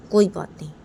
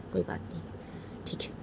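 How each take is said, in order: First: Loud angry koi baat nahin; loud retort. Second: Bitter whisper to himself. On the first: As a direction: punch it out louder. Father shouts during quarrel. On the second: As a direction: breathe it out unvoiced. Father repeats it under breath. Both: Acted.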